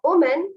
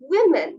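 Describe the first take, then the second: First: The first syllable sounds like 'wo'. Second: The first syllable sounds like 'wi'. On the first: The speaker calls it wrong. "but it's not women" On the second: The speaker calls it right. "it's women. The word should be pronounced as women. We men"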